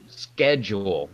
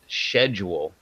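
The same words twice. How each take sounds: First: The word begins with a sk sound. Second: The word begins with an sh sound.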